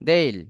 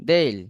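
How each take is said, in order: The two takes are said the same way.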